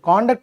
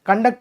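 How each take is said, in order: First: The stress is on the first syllable. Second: The stress is on the second syllable. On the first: It is used as a noun meaning behaviour. "కాండక్ట్ అనేది noun" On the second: It is used as a verb. "కండక్ట్ అనేది verb"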